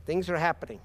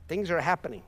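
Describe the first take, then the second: No difference in how they are said.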